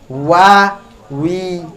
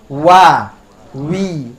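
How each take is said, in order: The two takes are said the same way.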